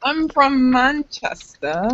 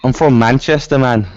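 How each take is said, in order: First: Slow, higher-pitched Manchester attempt; British accent. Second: Louder, higher take on a Manchester accent; English accent. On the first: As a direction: draw out a put-on British accent. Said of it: "I only do it, like, when I'm watching Harry Potter". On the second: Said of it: "here's your English accent". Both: Shown as a demonstration.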